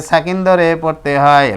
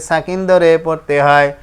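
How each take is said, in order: The two takes are said the same way.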